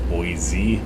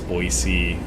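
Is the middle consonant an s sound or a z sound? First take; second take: z; s. First: The middle consonant is a z sound. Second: The middle consonant is an s sound. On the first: The speaker calls it wrong. "which it's not because there's no Z there" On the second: The speaker calls it right. "it's an S"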